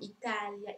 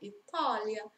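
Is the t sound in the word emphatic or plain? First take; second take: plain; emphatic. First: The t is a plain, light dental sound. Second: The t is a heavy, emphatic guttural sound. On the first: The speaker calls it wrong. "Non diciamo Italia" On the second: The speaker calls it right. "noi diciamo Italia"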